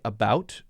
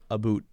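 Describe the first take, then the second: First: The vowel sounds like 'ow'. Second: The vowel sounds like 'oo'. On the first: "as most Americans will say it" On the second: "they'll say aboot"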